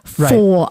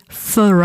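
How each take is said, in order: First: The vowel in the word is full and strong. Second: The vowel in the word is reduced and weak. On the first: Exactly four hours, not three. The speaker calls it wrong. "and not four" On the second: Someone has waited a long time. The speaker calls it right. "you have to be careful and say for hours"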